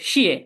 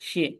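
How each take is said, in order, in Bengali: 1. পিচ জোর দিয়ে তীব্রভাবে নিচে নামে। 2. শব্দাংশটি হালকা ও অনাঘাতিত। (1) "এখানে ধাক্কা দিয়ে বলবো ... নিচে পড়বে" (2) "এই নিউট্রাল টোন এখানে আমরা স্লাইডলি হয়ে বলবো"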